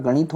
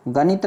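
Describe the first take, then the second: First: "गणित" with a curled-tongue ṇ; retroflex "गणित". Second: "गणित" with a plain dental n. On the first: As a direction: say गणित with a true ण. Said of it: "होता है". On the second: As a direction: say गणित as ganit, with न. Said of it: "नहीं होता". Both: Shown as a demonstration.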